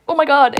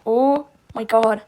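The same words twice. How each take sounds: First: Higher and louder, a quick burst of shock; excited oh my god. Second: A drawn-out, slow, awestruck oh my god; slow stunned surprise. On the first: Tongue-out drawn face blurting, loud and high. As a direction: blurt it out, thrilled. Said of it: "You could be like". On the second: Surprised character in the drawing, slow stunned gasp. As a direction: let it hang, slowly, in disbelief. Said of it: "he can also be surprised. He can be like". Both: Pretend.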